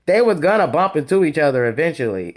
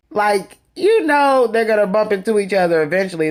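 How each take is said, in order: First: Said in the usual way. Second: Mock shocked. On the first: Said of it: "why he acted so shocked". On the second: The host imitating Anthony reacting to Drew's gala story, mock shocked. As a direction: act out Anthony's fake shock lightly. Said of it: "And he was just shocked".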